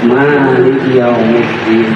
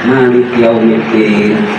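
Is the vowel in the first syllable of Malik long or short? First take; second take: long; short. First: The first vowel of Malik is lengthened. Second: The first vowel of Malik is short. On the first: It calls God the owner of the Day of Judgement. "yang kedua artinya pemilik" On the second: It calls God the king of the Day of Judgement. "Yang satu artinya raja"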